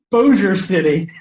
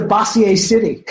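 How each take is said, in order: First: "Bossier" said as BOH-zher; correct local pronunciation. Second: "Bossier" said as bah-see-ay; mispronounced Bossier. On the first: Shown as a demonstration. Storyteller explaining the real town name, "Bossier" said BOH-zher. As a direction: say "Bossier" in two syllables, BOH-zher, slowly. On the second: Retold or imitated. Singer baffled by a town name on the itinerary, "Bossier" mispronounced bah-see-ay. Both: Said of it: "but he pronounced it Bossier".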